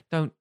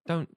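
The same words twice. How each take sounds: The two takes are said the same way.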